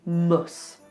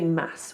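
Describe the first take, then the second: First: The vowel is a short reduced 'uh'. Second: The vowel is a full open 'a'. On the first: The speaker calls it right. "we do mus" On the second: The speaker calls it wrong. "we don't say mass"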